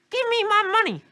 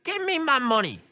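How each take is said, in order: First: Even higher, louder squeaky granny; old lady voice. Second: Put-on high, squeaky old lady demand. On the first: Acted. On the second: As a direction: squeak it out like a grandma robbing a bank. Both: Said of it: "I can't do an old lady voice".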